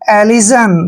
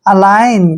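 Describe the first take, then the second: First: The g is sounded, like elijan. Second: The g is silent, like uh-line. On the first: The speaker calls it wrong. "जो beginner होगा ... इसको पढ़ेगा एलिजन, देखिए जो कि गलत है" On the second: The speaker calls it right. "जी वहां पर साइलेंट होता है"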